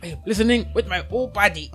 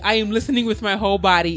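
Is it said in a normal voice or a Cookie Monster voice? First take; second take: Cookie Monster; normal voice. First: It is said in a Cookie Monster voice. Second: It is said in a normal voice.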